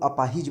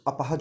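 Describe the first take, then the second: First: The last syllable has an 'i' vowel. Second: The last syllable has an 'a' vowel. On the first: The speaker calls it wrong. "आम भाषा में लोग अपाहिज बोलते हैं, वो गलत है" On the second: The speaker calls it right. "अपाहज होता है"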